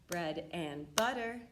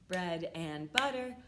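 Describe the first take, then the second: No difference in how they are said.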